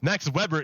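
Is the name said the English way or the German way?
English. The name is said with English pronunciation. The speaker calls it wrong. "Max Weber is Anglo"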